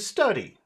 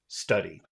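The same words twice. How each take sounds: First: The word ends on a high pitch. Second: The word ends on a low pitch. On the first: The speaker calls it wrong. "Oh, I just did it high" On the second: The speaker calls it right. "Finish it low"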